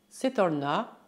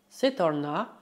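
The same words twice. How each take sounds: Both takes have the same delivery.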